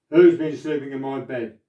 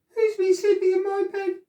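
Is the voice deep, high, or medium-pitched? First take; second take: deep; high. First: It is said in a great big voice. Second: It is said in a teeny wee voice.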